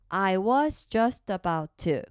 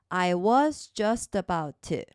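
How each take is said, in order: Both takes have the same delivery.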